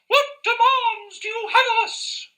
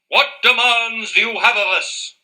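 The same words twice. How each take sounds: First: It is said in a raised, higher voice. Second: It is said in a normal, lower voice.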